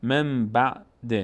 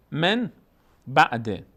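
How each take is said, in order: First: مم بعد slowly, humming the m into b; n turned to m. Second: من بعد with clear n, word by word; as written. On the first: Teacher models the rule, مم بعد slow with held m. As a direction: hold مم long, then بعد. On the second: Teacher reads the written form, من بعد split with plain n. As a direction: say من, pause, then بعد. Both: Shown as a demonstration.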